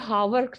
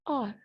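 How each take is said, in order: First: The word is said as two syllables. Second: The word is said as one syllable. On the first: The speaker calls it wrong. "ये हावर नहीं कहलाता" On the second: The speaker calls it right. "Simply आर"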